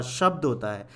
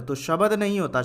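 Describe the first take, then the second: First: शब्द with a half ब, no vowel after it; शब्द, ब joined to द; correct form. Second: शब्द as शबद, with a full ब; शबद, ब spoken full; wrong full form. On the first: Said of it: "इसीलिए ये ब आधा आता है". (सही उच्चारण: शब्द, आधा ब) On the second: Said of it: "अगर मैं इसको पूरा लिख दूं". (गलत उच्चारण: शबद, पूरा ब) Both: Shown as a demonstration.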